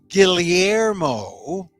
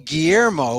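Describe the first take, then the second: First: The double L is a rolled L sound. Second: The double L is said the Spanish way. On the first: The name honors the Filipino way of saying it. The speaker calls it right. "which is a more of a roly L double L sound" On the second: The name follows the colonizers' pronunciation. The speaker calls it wrong. "which is the Spanish way when you order a burrito"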